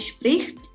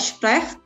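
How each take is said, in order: First: The verb's vowel sounds like 'i'. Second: The verb's vowel sounds like 'e'. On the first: The speaker calls it right. "tapi spricht" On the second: The speaker calls it wrong. "tidak sprecht"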